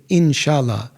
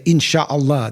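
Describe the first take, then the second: First: "Inshallah" with a light, plain Turkish l; Turkish pronunciation. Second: "Inshallah" with a heavy Arabic double l; Arabic pronunciation. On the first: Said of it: "They say". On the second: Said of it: "but they don't say". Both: Shown as a demonstration.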